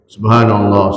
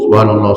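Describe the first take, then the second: First: It is said at a slow, even pace. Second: It is said quickly.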